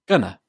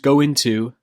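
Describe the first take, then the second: First: The words are joined and shortened together. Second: The words are said separately in full.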